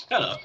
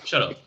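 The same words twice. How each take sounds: First: Laughing through the words; breathy laugh while telling him off. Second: Said in the usual way. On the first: Real, not acted. Laughing at friend's teasing.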